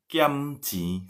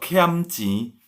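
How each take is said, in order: First: "Kiamci" with a plain unaspirated Indonesian K, pitched higher; "Kiamci" without H. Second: "kiamci" as khiamci, breath puff after K. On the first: Teacher reading out a student's misspelling, "Kiamci" with no H. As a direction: read "Kiamci" as spelled, no puff after K. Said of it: "Saya baca sesuai dengan ejaan bahasa Indonesia". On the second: Teacher correcting students, "kiamci" with aspirated KH. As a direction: aspirate the K of "kiamci", slow and higher. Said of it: "Jadi penting ya huruf H ya". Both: Shown as a demonstration.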